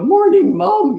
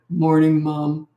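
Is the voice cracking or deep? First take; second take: cracking; deep. First: The voice breaks, jumping up and down in pitch. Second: The voice stays low and steady throughout. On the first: A boy's voice is still changing. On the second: The boy is turning into a man.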